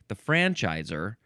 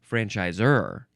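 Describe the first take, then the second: First: The stress is not on the last syllable. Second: The stress is on the last syllable. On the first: The word names someone who grants a franchise (older form). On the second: The word names someone who grants a franchise (newer form).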